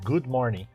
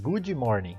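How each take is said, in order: First: Good ends cleanly on the d sound. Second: An extra ee vowel follows good. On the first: "Por exemplo" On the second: "Aí faz"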